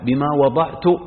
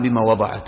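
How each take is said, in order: First: The final verb ends with the sound 'tu'. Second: The final verb ends with the sound 'at'. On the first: The mother herself speaks about what she bore. "يعني يكون الكلام هذا لمن؟ لحنة نفسها" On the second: Someone else speaks about what she bore. "هذه قراءة الجمهور"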